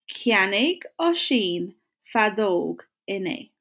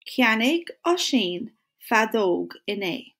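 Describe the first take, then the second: First: Cheannaigh ó shin fadóg in A said slowly, word by word; slow it down so the class can follow; slow model sentence. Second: Said in the usual way. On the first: Shown as a demonstration. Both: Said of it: "say it with me or say it after me".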